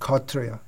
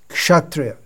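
First: The word has a Bengali pronunciation. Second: The word has the standard non-Bengali pronunciation. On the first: This is the Bengali way of saying it. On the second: This is the standard way outside Bengal.

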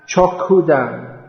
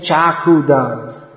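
First: The first vowel is an o sound. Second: The first vowel is an a sound. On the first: The guru gives eyes. The speaker calls it right. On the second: The guru gives a knife. The speaker calls it wrong.

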